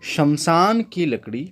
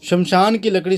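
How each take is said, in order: First: It is spoken slowly and deliberately. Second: It is spoken at a normal pace.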